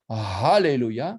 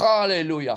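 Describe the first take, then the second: First: The h sound is a soft breath. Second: The h sound is harsh and guttural. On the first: Praise God. The speaker calls it right. "c'est un souffle" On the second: God be cursed or defiled. The speaker calls it wrong. "ha, c'est guttural"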